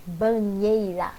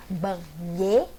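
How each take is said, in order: First: Banheira said slowly as a whole word; slow, careful word. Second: Slow banheira, ba-nhei-ra with pauses; syllable by syllable. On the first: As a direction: draw out Banheira without breaking it. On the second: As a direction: split banheira into separate syllables, lower. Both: Shown as a demonstration. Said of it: "a separação de sons".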